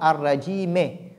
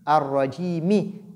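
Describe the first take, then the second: First: The word ends with a short e vowel. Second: The word ends with a short i vowel. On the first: The speaker calls it wrong. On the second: The speaker calls it right.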